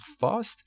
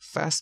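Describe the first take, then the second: First: The vowel is a long open ah. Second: The vowel is a short front a. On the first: "fast میشه بریتیش" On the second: "کلمه امریکنه تلفظش"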